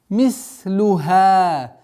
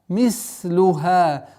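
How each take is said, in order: No difference in how they are said.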